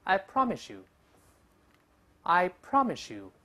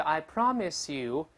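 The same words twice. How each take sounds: First: I promise you as "I promi-shoo", slow; linked pronunciation. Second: I promise you with clear s before you; slow careful reading. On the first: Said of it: "又变成这声音". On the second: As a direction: say "I promise you" keeping s and y apart. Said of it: "本来读慢了叫". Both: Shown as a demonstration.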